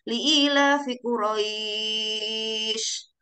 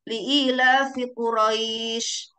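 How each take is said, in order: First: The long vowel is stretched out for long. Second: The long vowel is held only briefly. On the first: "Kalau misalnya yang pertama kita sudah membacanya enam harokat" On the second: "kalau yang pertama kita baca cuman satu ayunan atau dua harokat"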